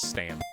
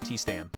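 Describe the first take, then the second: First: The name begins with an S sound. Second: The name begins with a T sound. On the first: "T silent, so it's just Stam" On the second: "with a T in the front"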